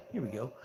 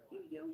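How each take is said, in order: First: Said in the usual way. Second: Very high, soft coo to the cat; baby talk to cat. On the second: Acted. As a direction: sing it softly to the kitty. Cooing while feeding cat.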